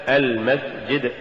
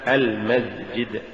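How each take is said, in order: First: المسجد said slowly with a clear whispered s; careful المسجد with voiceless s; correct s sound. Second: المسجد said slowly and softer with z for s; wrong z for s. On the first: (المسجد بسين مهموسة) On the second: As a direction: demonstrate the error المسجد as almazjid. (المسجد بالزاي بدل السين خطأً) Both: Shown as a demonstration. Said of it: "تقرأ لحنا".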